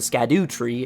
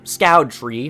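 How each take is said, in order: First: The name starts with sk and sounds like skadoo. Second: The name sounds like the word scout. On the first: "nor is it the Skadu tree" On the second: "no, it's not the Scout tree"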